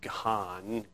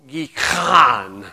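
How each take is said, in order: First: It is said with a plain English accent. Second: It is said with a guttural Israeli accent. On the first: "Some say Gihon" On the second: "Something like that"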